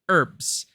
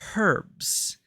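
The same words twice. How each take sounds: First: The word begins with a silent H. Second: The word begins with an audible H sound. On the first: This is how the speaker grew up saying it. "that's what I grew up with as a kid" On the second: This is how other people say it. "I keep hearing people pronounce it as herbs"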